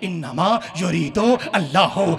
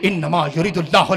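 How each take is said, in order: First: Each word is said separately with breaks. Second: The words are run together without breaks. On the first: The speaker calls it right. "एक एक लफ्ज सुनो" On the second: The speaker calls it wrong. "ना ना ना ऐसे नहीं"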